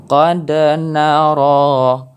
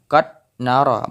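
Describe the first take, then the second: First: Slow "Qad nara" with a clear echo on the d; bounced dal. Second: "qad nara" with the d stopped flat; wrong way, no bounce. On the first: Teacher showing the right reading, bounced dal. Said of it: "harus ada pantulan huruf". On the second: Teacher showing the wrong reading, flat dal. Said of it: "bukan qad nara". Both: Shown as a demonstration.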